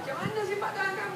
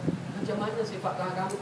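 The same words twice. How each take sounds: First: The question is asked in a mocking tone. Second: The question is asked in a respectful tone. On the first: The asker intends to ridicule. "dia tanya dalam keadaan intonasi yang mengejek" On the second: The asker sincerely wants to know. "Bukannya dia datang"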